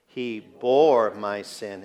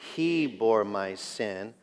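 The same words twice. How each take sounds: First: The word 'bore' carries the main stress. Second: The word 'he' carries the main stress. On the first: The act of bearing it is what matters. "the fact that he bore my sin" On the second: It was he, and no one else, who bore it. "Let's say it with the emphasis on he"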